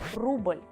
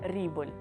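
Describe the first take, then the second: First: The vowel is a Russian 'u' sound. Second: The vowel sounds like an English 'i'. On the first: The speaker calls it right. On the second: The speaker calls it wrong.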